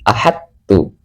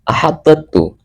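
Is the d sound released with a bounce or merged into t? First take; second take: merged; bounced. First: The d merges straight into the t. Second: The d is released with a bounce before t. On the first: The speaker calls it right. "langsung dimasukkan ke huruf ta" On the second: The speaker calls it wrong. "tidak seperti itu"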